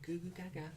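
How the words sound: It is said in a babyish voice. "just say it like a baby?"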